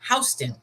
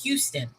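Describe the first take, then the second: First: It is said the New York way. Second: It is said the Texas way. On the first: This is how the New York place is named. "in New York, it's not pronounced Houston, it's pronounced Houston" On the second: This is how the Texas city is named. "in Texas, it's Houston"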